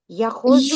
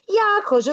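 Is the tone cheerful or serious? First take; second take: serious; cheerful. First: The tone is grave and serious. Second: The tone is bright and cheerful. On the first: "А тепер скажемо серйозно" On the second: "А зараз скажемо весело-весело"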